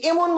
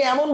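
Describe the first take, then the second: First: "এমন" starting with a tight e, "emon"; close e vowel. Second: "এমন" starting with open ae, "æmon"; open ae vowel. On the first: Teacher offering students the wrong option, close e vowel. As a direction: say "এমন" as spelt, with close e, pitched up. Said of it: "নাকি এমন বলেন". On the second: Teacher asking students how they say it, open ae vowel. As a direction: say "এমন" the everyday way, with wide ae. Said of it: "আপনি কি এমন বলেন?". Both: Shown as a demonstration.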